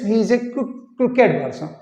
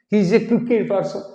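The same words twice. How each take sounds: First: Crooked ends in an 'id' sound. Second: Crooked ends in a plain 't' sound. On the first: The speaker calls it right. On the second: The speaker calls it wrong.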